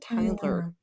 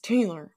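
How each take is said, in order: First: The first vowel sounds like 'eye'. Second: The first vowel sounds like 'ay'. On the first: The speaker calls it wrong. "My name's not Tyler" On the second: The speaker calls it right. "It's Taylor"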